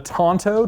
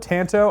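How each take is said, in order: First: It is pronounced in a Japanese-like way. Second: It is pronounced in an American way. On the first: It names the traditional Japanese blade. "by far the more correct pronunciation" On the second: It names the American-style blade. "I know I sound like a dumb American"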